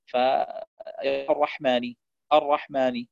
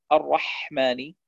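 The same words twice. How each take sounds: First: الرحمن with a short, weak ḥ; haa without breath. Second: Slow الرحمن with a long flowing ḥ; breathy haa. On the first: Teacher showing a mistake, الرحمن with haa lacking breath. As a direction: pass over the ḥ of الرحمن without airflow. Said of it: "بدون أن يجري النفس". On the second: Teacher giving correct recitation, الرحمن with airy haa. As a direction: let breath run through the ḥ of الرحمن. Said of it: "يجب أن تقرأ بهذه الطريقة". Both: Shown as a demonstration.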